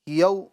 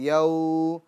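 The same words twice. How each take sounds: First: The vowel is cut off with an abrupt jolt. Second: The vowel is stretched out long. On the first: "झटका नहीं देंगे" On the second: "ना इसको खींचेंगे"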